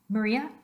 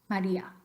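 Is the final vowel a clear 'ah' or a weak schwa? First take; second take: schwa; ah. First: The final vowel is a weak schwa. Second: The final vowel is a clear open ah.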